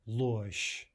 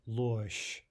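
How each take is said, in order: The two takes are said the same way.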